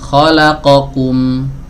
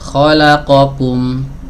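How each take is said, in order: No difference in how they are said.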